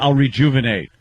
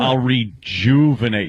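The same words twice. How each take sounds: First: The syllable 'ju' is not specially stressed. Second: The syllable 'ju' is strongly stressed. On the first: It is a plain statement with no joke.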